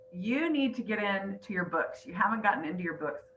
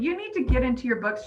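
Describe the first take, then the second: First: Emotional, holding back tears; choking up. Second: Said in the usual way. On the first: Real, not acted. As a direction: quote it softly while fighting tears. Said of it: "Sorry, I try not to get emotional". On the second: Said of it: "anyway, she said".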